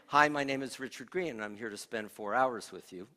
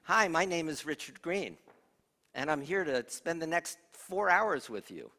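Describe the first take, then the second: First: The voice is fuller, with moderate resonance. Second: The voice is thin, with little resonance.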